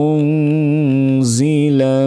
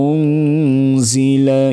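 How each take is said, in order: No difference in how they are said.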